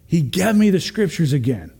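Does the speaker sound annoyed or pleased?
pleased. It is said in a glad, pleased tone. Hearing scripture again is a blessing. The speaker calls it right. "Instead of"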